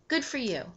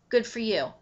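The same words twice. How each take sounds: First: It is said in a warm, sincere tone. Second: It is said in a bitter, sarcastic tone. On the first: The speaker is genuinely happy for the other person. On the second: The speaker resents the other person's success.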